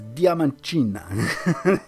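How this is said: The name is said with a Portuguese accent. "how to pronounce it in a Portuguese accent"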